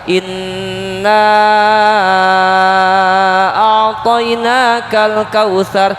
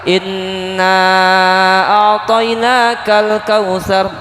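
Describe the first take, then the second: First: The final vowel of inna is held very long. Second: The final vowel of inna is held moderately long. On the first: "Boleh lima sampai enam harokat" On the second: "Boleh tiga sampai empat harokat"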